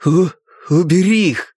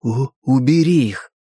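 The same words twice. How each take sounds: First: Louder, sharp stammered command; sharp stutter. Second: Stammering on the first sound; stuttering. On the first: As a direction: force it out harshly through a stutter. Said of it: "Резкий тон". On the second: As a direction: push the words out through a stutter. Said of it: "старался выдавить из себя слова". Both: Acted.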